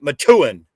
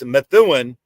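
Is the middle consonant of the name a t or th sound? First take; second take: t; th. First: The middle consonant is a plain t sound. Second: The middle consonant is a th sound. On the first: This is how local people say it. "locals pronounce it Methuen. M E T, take the H out" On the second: This is the standard pronunciation. "It's Methuen"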